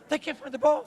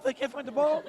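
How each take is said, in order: First: Said in the usual way. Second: Laughing. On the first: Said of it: "We said". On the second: Retold or imitated. Retelling a funny family story.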